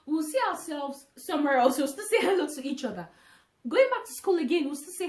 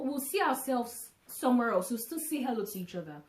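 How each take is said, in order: First: Emphatic, louder. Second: Said in the usual way. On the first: Real, not acted. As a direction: say it again louder and harder. Repeats the same words louder.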